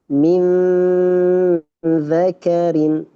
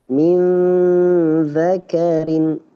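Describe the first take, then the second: The two takes are said the same way.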